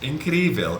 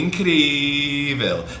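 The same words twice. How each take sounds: First: The word is said at normal length. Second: The word is stretched out long. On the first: Something was simply incredible. "just like three syllables" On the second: Something was extremely incredible. "really, really incredible"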